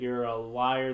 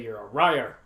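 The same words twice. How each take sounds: First: The word starts with a clear L sound. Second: The word starts with an R-like sound.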